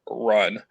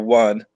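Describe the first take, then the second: First: The word begins with an R sound. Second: The word begins with a W sound. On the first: The speaker calls it right. "I'm like" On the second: The speaker calls it wrong. "A lot of times it was a W sound"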